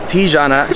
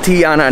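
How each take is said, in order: First: The J in the name sounds like a J. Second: The J in the name sounds like a Y. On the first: The speaker calls it wrong. "not Tijanna" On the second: The speaker calls it right. "it's actually pronounced Tijanna"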